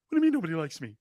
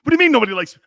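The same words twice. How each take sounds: First: Said in the usual way. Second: Louder, higher whiny take on a quarterback; Baker Mayfield impression. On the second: A host mocking a quarterback, whiny and loud. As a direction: play the hurt star quarterback, loud. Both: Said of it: "I sound like Baker Mayfield now".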